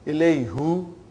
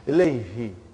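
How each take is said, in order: First: The pronoun ending is said with a 'u' vowel. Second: The pronoun ending is said with an 'i' vowel. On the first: The speaker calls it wrong. "It takes extra effort. And even also, it doesn't sound nice to the ear" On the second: The speaker calls it right. "now pronounced ilayhi. It, you can pronounce with ease"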